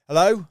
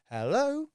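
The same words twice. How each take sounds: First: A blunt, loud "Hello?" from a busy prospect; curt loud hello. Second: Bright high rising "Hello"; "Hello" sung up high like a happy answerer; chirpy hello. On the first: Caller mimics a busy prospect on a building site: curt loud hello. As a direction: bark "Hello?" like you're being interrupted on site. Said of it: "they're like". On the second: Caller mimics a cheerful prospect picking up: chirpy rising hello. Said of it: "rise their inflection at the end". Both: Retold or imitated.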